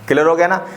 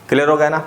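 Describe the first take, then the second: No difference in how they are said.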